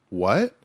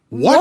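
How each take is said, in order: First: It is asked as a plain, calm question. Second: It is asked with astonished, exclaiming force.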